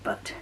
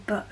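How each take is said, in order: First: "but" with a released t; final T sounded. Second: "but" cut off in the throat, no t; glottal final T. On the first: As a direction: finish "but" on a crisp t. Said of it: "instead of but". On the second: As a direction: swallow the t of "but". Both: Shown as a demonstration.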